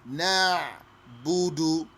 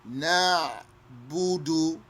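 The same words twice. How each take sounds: The two takes are said the same way.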